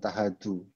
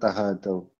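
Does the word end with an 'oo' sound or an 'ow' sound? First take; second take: oo; ow. First: The word ends with a plain 'oo' vowel. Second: The word ends with an 'ow' diphthong. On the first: The speaker calls it wrong. "Jangan tahadu" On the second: The speaker calls it right. "Yang bener tahadau"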